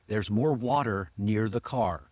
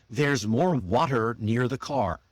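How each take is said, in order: The two takes are said the same way.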